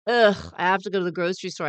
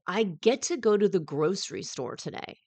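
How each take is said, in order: First: It is said in an annoyed, drained tone. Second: It is said in a cheerful, grateful tone.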